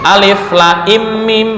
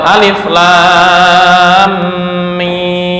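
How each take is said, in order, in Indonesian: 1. Vokal pada lam dibaca pendek dan ringan. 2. Vokal pada lam dibaca sangat panjang. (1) "yang meringankan"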